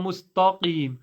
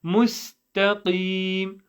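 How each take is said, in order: First: "mustaqim" with a thick, full-mouth t; "mustaqim" with the t darkened; wrong heavy t. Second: "Mustaqim" drawn out with a light, thin t; slow, careful "Mustaqim" with a clean t; correct light t. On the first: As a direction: show the mistake in "mustaqim": heavy "ta" in the middle. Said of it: "It's not". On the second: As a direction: say "Mustaqim" slowly, t light and i long. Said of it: "It's not a ta". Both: Shown as a demonstration.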